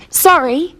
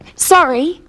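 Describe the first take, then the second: First: Said with the tune of an apology. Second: Said with the tune of an apology.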